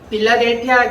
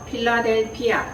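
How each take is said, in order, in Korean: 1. 이 단어는 부드러운 B 소리로 시작해요. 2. 이 단어는 거센 P 소리로 시작해요. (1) "빌라델피아라고 우리가 이렇게 발음을 하지만" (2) "원래는 뭐예요? 어떻게 발음을 해요?"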